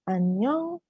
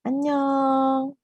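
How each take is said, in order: First: It is said high with a rising tune. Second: It is said longer and drawn out. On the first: It is a greeting meaning hello. "intonasinya tinggi, naik" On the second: It is a farewell meaning goodbye. "biasanya lebih panjang"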